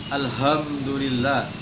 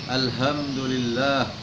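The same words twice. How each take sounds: Both takes have the same delivery.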